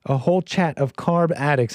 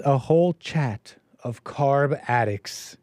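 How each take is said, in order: First: Said in the usual way. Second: Slow reading of a viewer's super chat; slow quoted super chat; reading out a comment. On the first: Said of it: "A whole chat of them". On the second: Shown as a demonstration. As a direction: read the comment aloud, drawn out slowly.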